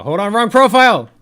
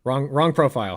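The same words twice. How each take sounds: First: Louder and higher urgent correction; shouting. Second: Said in the usual way. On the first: Real, not acted. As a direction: call it out loud and alarmed.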